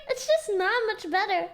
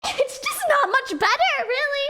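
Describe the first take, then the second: First: Said in the usual way. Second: Mock indignant. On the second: Real, not acted. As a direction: squeak it out in fake outrage. Joking complaint about ten-year-old.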